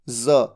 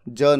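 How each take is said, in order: First: The consonant is a z sound. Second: The consonant is a j sound. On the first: The speaker calls it right. "ज के नीचे एक बिंदु" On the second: The speaker calls it wrong. "ज नहीं"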